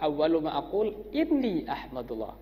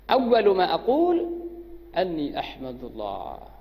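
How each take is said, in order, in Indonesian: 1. Kata setelah aqul diawali dengan vokal i. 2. Kata setelah aqul diawali dengan vokal a. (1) "Kalau dibaca kasrah" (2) "Kalau dibaca fathah ya kayak tadi"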